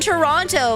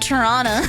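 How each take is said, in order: First: The second t is clearly pronounced. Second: The second t is dropped entirely. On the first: This is how the word is spelled. "it's written Toronto" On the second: This is how locals actually say it. "but it said Toronto. Tur-on-uh"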